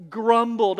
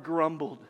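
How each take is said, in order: First: Grumbled hit much louder; grumbled said loud and falling; stress on grumbled. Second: Said in the usual way. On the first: Shown as a demonstration. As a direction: punch the word grumbled. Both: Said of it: "Underline that word".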